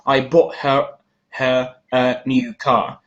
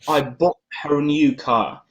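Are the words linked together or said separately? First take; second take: separately; linked. First: Each small word is said fully and separately. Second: The words run together with the small words reduced. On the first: The speaker calls it wrong. "it's not" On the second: The speaker calls it right. "You kinda miss, you kinda skip this A"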